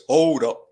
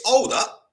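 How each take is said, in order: First: Hint of a low singer's drawl on hold up; lightly voiced singer saying hold up. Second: Said in the usual way. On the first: Streamer echoes chat in a singer's voice, barely changed. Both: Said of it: "In my singer voice".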